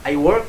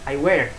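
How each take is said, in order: First: It is said in a standard southern English accent. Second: It is said in a Liverpool Scouse accent. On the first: "standar Inggris yang digunakan di London" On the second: "kalau di Scouse di Liverpool"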